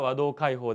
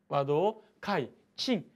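First: The name ends with the sound 'kaihō'. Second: The name ends with the sound 'kaichin'. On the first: "読み方は和銅開放でも構いません" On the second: "和銅開珍でも"

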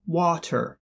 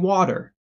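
First: Water is said as written, Caribbean style. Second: Water is said the usual American way.

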